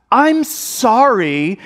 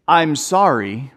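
First: Higher, very drawn-out fake apology; not sorry at all. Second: Slow, lower, sincere "I'm sorry"; sincere apology. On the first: Kid forced to apologize for hitting, insincere. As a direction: drag out an apology you don't mean. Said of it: "is not sorry at all". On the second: Shown as a demonstration. Dad showing kids a real apology, sincere. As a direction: apologize slowly and mean it. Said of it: "Not, "I'm sorry".

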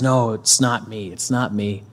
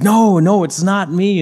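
First: Said in the usual way. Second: Much higher, louder acted protest; insistent denial. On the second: Disciple denying Jesus to his accusers, insistent denial. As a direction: imitate someone hotly denying it. Peter denies again under pressure.

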